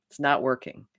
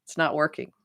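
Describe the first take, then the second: First: Whispered, no voice at all. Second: Said in the usual way. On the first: Shown as a demonstration. Showing listeners what to tell themselves, whispered. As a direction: breathe It's not working as a private admission. Saying stop to the pattern.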